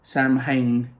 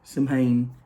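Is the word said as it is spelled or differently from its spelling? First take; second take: as spelled; as spelled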